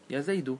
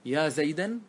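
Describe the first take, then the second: First: The name ends with a u vowel. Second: The name ends with an a vowel. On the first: The name is fixed on the u ending for direct address. The speaker calls it right. "والمفرد علم في باب النداء يبنى على الضم" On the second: The name is put in the accusative case. The speaker calls it wrong. "فهل يجوز أن تقول يا زيدا"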